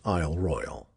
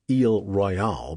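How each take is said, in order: First: The name is said in a plain way. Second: The name is said in a fancy way. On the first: The speaker calls it right. "Pronounce it Isle Royale" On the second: The speaker calls it wrong. "brands you an outsider and a fancy pants"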